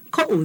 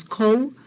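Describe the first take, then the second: First: "ko" broken by a catch into ko-u; ko'u with okina. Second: "Ko" as one unbroken glide; ko without okina. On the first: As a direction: say "ko" as ko, glottal stop, oo. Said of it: "that okina is really important". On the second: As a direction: say "Ko" smoothly, no catch in the middle. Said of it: "that's the difference". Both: Shown as a demonstration.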